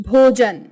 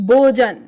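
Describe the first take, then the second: No difference in how they are said.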